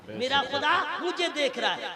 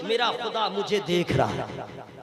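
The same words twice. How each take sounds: First: Said in the usual way. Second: Lower, hushed and inward; devout whisper-like. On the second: Shown as a demonstration. Preacher modelling the believer's inner thought, hushed and devout. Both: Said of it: "ये ईमान रखिए".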